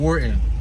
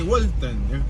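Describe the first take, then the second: First: The name is said in a plain English accent. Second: The name is said in a Spanish accent.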